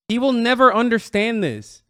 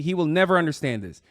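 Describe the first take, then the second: First: Emphatic. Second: Said in the usual way. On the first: Real, not acted. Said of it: "He just won't".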